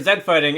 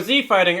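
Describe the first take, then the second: First: The letter is pronounced 'zed', rhyming with 'bed'. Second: The letter is pronounced 'zee', rhyming with 'see'. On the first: This is the British way to say it. "depending on where you're from" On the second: This is the American way to say it. "I'm gonna go with the former because I am indeed an American"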